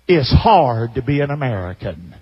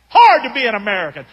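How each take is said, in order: First: Low, sulky whine of a well-off retiree; quoting the complainer. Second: Mocking echo. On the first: Retold or imitated. Preacher mimics the rich retiree griping about America, in a low sulky whine. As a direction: mope it out like a spoiled complainer. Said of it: "And then he said this". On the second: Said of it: "I didn't talk like that, though".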